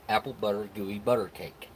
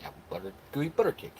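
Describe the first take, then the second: First: Said in the usual way. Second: Rushed, breathy tongue twister; tongue twister said fast. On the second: Shown as a demonstration. Reading a viewer's tongue twister, fast and breathy. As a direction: rattle it off quick as a tongue twister. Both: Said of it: "I said it three times fast".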